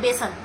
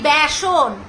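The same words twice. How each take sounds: First: It is said with a Hindi pronunciation. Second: It is said with a Bengali pronunciation. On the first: "হিন্দিতে কিন্তু এইভাবে উচ্চারণ করে" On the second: "আমরা বলি বেসন"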